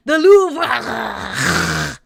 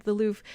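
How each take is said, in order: First: "The Louvre!" called out louder, "Louvre" drawn out and punched; mock enunciated Louvre. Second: Said in the usual way. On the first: Streamer mocks chat's fancy way of saying it, loud and drawn out. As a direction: overdo "The Louvre!" like the chat does. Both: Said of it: "everybody's like".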